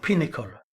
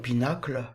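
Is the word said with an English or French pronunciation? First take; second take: English; French. First: It is pronounced the English way. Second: It is pronounced the French way. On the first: The speaker calls it right. "on devrait dire Pinnacle" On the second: The speaker calls it wrong. "je le prononce à la française"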